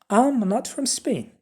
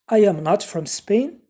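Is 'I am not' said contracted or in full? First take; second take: contracted; full. First: The first two words merge into one contraction. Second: Every word is said separately, not contracted. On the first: "If you want to make it short" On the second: "a full form"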